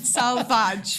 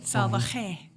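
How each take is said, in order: First: The name is said like the English word salvage. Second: The name is said with Spanish pronunciation. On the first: The speaker calls it wrong. "the worst pronunciation I've heard" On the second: The speaker calls it right. "I'll say it the Spanish way"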